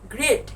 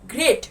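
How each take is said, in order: Both takes have the same delivery.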